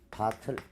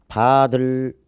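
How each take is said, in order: First: The second syllable starts with a t sound. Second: The second syllable starts with a d sound. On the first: The speaker calls it right. "일 번 선택지는 바틀" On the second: The speaker calls it wrong. "바들도 아니고"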